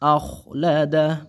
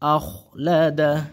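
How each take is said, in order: No difference in how they are said.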